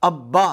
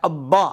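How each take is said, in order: The two takes are said the same way.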